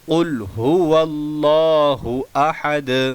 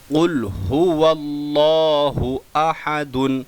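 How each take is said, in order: First: The last word ends sharply on a bare 'd'. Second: The last word ends with a full 'dun' syllable. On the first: The reader stops at the end of the verse. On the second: The reading runs on without a stop here.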